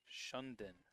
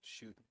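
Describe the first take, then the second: First: An extra N sound is in the middle. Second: No extra N sound is in the middle. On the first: The speaker calls it wrong. "with an extra N in the middle" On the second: The speaker calls it right.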